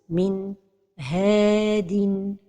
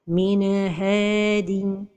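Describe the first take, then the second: First: There is a break between N and H. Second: The N is released with a small bounce. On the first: "c'est la pause" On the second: "La première erreur, c'est al-qalqalah de an-noun as-sakina"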